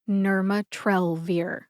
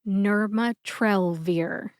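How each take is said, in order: Both takes have the same delivery.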